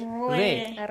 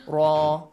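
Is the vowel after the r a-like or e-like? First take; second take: e-like; a-like. First: The vowel after the r is a fronted e. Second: The vowel after the r is an open a. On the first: The speaker calls it right. "you say re" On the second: The speaker calls it wrong. "You don't say ra"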